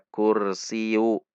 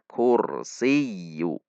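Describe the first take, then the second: First: The y sound is short and single. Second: The y sound is held and doubled. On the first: The speaker calls it wrong. "maka ya tasydid menjadi hilang" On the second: The speaker calls it right. "Namun dibaca kursiyu"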